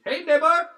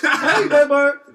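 First: Loud neighbor greeting. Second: High, loud cheery "Hey, neighbor!" through laughter; laughing greeting. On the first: Neighbor greeting loudly, retold. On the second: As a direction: shout the greeting while cracking up. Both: Retold or imitated.

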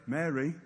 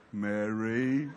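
First: Low, soft, simple call of the name; understated Mary. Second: Very low, stretched name with a rising end; drawn-out Mary. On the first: Jesus calls Mary at the tomb, low and understated. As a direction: say the name quietly and plainly. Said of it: "I'd love to know how he said Mary". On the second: Jesus might have greeted Mary so, low and drawn out. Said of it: "Or did he say". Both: Shown as a demonstration.

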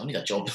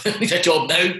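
First: Said in the usual way. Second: Higher and louder, laughing it out; half-laughing plea for work; laughing urgency. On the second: Retold or imitated. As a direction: blurt it with a laugh, desperate. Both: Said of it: "I'm thinking to myself".

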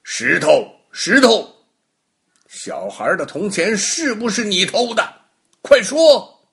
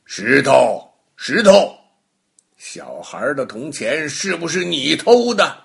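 First: Higher and louder, ending in a shouted order; pressing harder. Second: Loud call to the stone, then firm question; stern questioning. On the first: Baogong asks the stone again, higher and louder demand. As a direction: magistrate losing patience, barking quick now. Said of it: "包公又问了". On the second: Baogong interrogating the stone, loud stern call. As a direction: magistrate demanding an answer from a stone. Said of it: "包公对那块石头说". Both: Acted.

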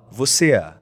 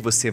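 First: Rio accent, extra A after the final vowel of "você é"; Carioca accent. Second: Said in the usual way. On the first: Shown as a demonstration. Teaching how Cariocas add a vowel, Carioca accent on "você é". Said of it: "você coloca um A depois da vogal". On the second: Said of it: "Então você fala assim, em vez de".

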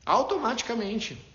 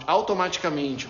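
First: "Automaticamente" said slower and higher, each syllable weighted; slow emphatic repeat. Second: Said in the usual way. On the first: Shown as a demonstration. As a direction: repeat "Automaticamente" slowly to drive it home. ("Automaticamente" repetido devagar e com ênfase)

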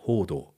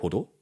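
First: Hodo with a long, held first O; long vowel. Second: Hodo with a short, quick first O; wrong short-O Hodo; short vowel. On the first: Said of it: "es heißt". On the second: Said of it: "Das heißt nicht". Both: Shown as a demonstration.

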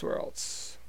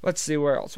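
First: Whispered aside, barely voiced; a breathy whispered afterthought; whispered to himself. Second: Said in the usual way. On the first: Real, not acted. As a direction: drop to a whisper as you think. Muttered repeat to himself.

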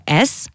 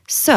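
First: Said in the usual way. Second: S said as "seu", not "esse"; s plus short eu; Albanian letter sound. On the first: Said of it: "ça se prononce". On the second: Shown as a demonstration. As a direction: say s as "suh". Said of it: "ça se prononce s".

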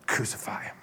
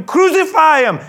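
First: Hushed, almost whispered order; resigned quiet verdict. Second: High, full-force shout; crowd yell. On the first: Pilate giving in to the crowd, hushed verdict. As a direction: let it drop softly, giving in. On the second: The crowd calling to Pilate for execution, high loud yell. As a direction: scream for it as the mob. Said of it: "they yelled". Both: Acted.

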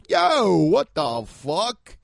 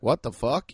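First: Slow, drawn-out New Yorker Yo with a louder lift; New York street voice. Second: Said in the usual way. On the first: Retold or imitated. New Yorker reacting on the street, New York accent drawl. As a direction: stretch it like a New York guy on the corner. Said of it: "you hear somebody go". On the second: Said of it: "instead of hearing somebody be like".

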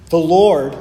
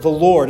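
First: "The Lord" punched louder, opening the verse; stress on The Lord. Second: Said in the usual way. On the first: Shown as a demonstration. Preacher reading verse four, stressing "The Lord". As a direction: lean hard on "Lord" as the first word. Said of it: "it gives this great emphasis". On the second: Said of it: "we see the word".

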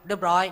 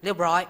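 The two takes are said the same way.

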